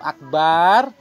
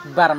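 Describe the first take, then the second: First: The second vowel is lengthened. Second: The second vowel is short. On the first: It means drum. The speaker calls it wrong. "kalau akbar gendang" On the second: It means greatest. The speaker calls it right. "akbar maha besar"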